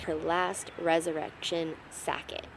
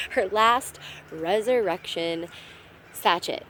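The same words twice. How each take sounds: First: Slow careful try, "sacket" said sack-it; mispronounced sachet. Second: Slow careful retry, "sachet" said sash-it; corrected pronunciation. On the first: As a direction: reads "sacket" as sack-it with a hard k. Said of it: "I cannot say that". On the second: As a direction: lands "sachet" as sash-it at last. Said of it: "How did she say that?". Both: Shown as a demonstration.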